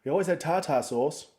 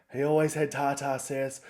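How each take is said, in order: First: Said in the usual way. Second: "sauce" said with a short "e" vowel, like "sess"; mispronounced sauce. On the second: Acted. Slips on word in mum's quote.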